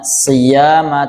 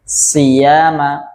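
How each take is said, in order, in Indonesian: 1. Suku kata pertama sedang, bibir tidak dimonyongkan. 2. Suku kata pertama dilebih-lebihkan dengan bibir dimonyongkan.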